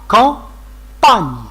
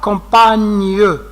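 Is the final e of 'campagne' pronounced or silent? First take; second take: silent; pronounced. First: The final e of 'campagne' is silent. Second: The final e of 'campagne' is pronounced. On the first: The speaker calls it right. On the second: The speaker calls it wrong.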